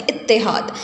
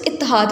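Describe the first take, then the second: First: اتحاد as "it-te-HAAD", t doubled; correct doubled consonant. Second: اتحاد as "it-a-HAAD", losing the i after the t; common mispronunciation. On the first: Teacher corrects the error for students, اتحاد as "it-te-haad". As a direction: say اتحاد with a held t and a short i after it. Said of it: "تے پر علامت شد ہے". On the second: Teacher shows students the common error, اتحاد as "it-a-haad". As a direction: say اتحاد wrongly, with "a" before the h. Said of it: "یہ لفظ بھی ہم غلط پڑھتے ہیں". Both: Shown as a demonstration.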